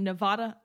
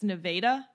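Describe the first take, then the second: First: The first A sounds like 'ah'. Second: The first A sounds like 'ay'. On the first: The speaker calls it wrong. "I've been pronouncing it wrong the whole time" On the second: The speaker calls it right. "The first A in Nevada, pronounced A"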